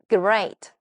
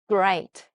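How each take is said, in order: First: The word is said with Korean sounds. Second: The word is said with English sounds. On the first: The speaker calls it wrong. "great가 아니라" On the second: The speaker calls it right. "끄, great"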